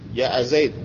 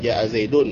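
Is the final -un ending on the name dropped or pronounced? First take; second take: dropped; pronounced. First: The name ends bare, without the -un ending. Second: The name ends with a full -un ending. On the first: The phrase is said in pause form. "Kalau waqafnya gitu" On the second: The phrase is read with its full case ending. "kalau ininya"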